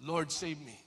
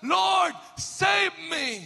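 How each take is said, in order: First: Said in the usual way. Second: Higher, louder, slow desperate shout of "Lord, save me"; crying out. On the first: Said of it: "Cried out". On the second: Retold or imitated. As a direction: stretch it out like a sinking man calling for help. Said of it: "Siya po ay sumigaw". (sumisigaw na paghingi ng saklolo)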